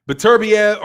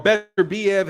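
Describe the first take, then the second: First: "Beterbiev" as buh-TUR-bee-ev; first pronunciation. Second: "Beterbiev" as BET-er-bee-ev; second pronunciation. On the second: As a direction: say "Beterbiev" with a clear BET at the start. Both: Shown as a demonstration. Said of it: "I've heard it pronounced".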